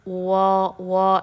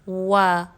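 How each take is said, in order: First: The vowel sounds heavy and thick. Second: The vowel sounds light and thin. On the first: The speaker calls it wrong. "ज़बर हैवी ना हो, वा वा ऐसे ना हो, पुर ना पड़े, मोटा नहीं पढ़ना" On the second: The speaker calls it right. "बल्कि इसको बारीक रखना है"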